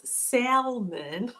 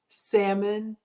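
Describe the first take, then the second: First: "salmon" slow, with the L sounded, SAL-mun. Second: "salmon" with a silent L, SAM-un; salmon without the L. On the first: Host polling viewers on how they say it, salmon with the L. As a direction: pronounce the L clearly in "salmon". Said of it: "with the L". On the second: Host polling viewers on how they say it, salmon without the L. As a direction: drop the L in "salmon" entirely. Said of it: "if you pronounce salmon without the L". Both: Shown as a demonstration.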